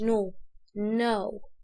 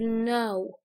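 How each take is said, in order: First: The word starts with an audible k sound. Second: The word starts without any k sound. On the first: The speaker calls it wrong. "مش" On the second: The speaker calls it right. "نقول know"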